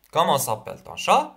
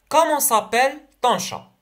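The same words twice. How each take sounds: First: Said in the usual way. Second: Comment s'appelle ton chat read high, comment lifted and falling; teacher modelling the question. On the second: Shown as a demonstration.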